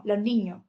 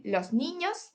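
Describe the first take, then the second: First: Los niños said as lo niño, final s dropped; Andalusian s dropping. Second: Said in the usual way. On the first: Shown as a demonstration. Teacher shows how Andalusians say it, s dropped. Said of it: "decimos los niños". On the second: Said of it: "en vez de decir los niños".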